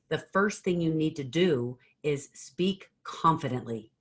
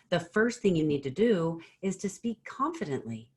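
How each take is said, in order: First: The voice falls at the end. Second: The voice rises at the end.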